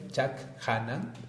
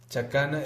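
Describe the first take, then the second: First: It is said as two parts, chak and hanan. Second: It is said as one smooth word.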